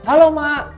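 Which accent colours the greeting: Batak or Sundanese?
Batak. It is said in a plain Batak accent. This is how it should normally sound. The speaker calls it right. "yang harusnya"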